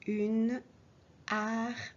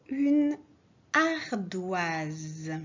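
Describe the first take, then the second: First: Said in the usual way. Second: Une ardoise called out loud; dictation word. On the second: Shown as a demonstration. Teacher dictating the fourth word loudly. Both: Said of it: "Quatrième mot".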